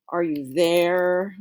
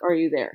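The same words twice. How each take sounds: First: "Are you there?" slow, leaning on "there"; stress on there. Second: Said in the usual way. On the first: Shown as a demonstration. Teacher showing students a stressed word, slow emphasis on "there". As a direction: draw out "there" slowly to emphasize it. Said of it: "if I want to emphasize one word".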